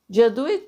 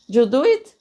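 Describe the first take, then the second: No difference in how they are said.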